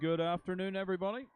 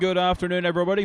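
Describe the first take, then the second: First: It is said quietly. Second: It is said loudly.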